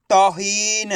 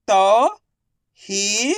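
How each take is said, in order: First: Said in the usual way. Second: तौहीन drawn out as tau, hee, na with pauses; syllable by syllable. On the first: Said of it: "तो मिलके बन जाएगा". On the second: Shown as a demonstration. Teacher sounding out तौहीन for learners, syllable by syllable. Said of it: "एक अक्षर का उच्चारण करके".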